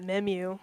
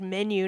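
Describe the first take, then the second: First: The second syllable starts with an m sound. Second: The second syllable starts with an n sound. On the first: The speaker calls it wrong. "not memu" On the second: The speaker calls it right. "perfect if I had said menu"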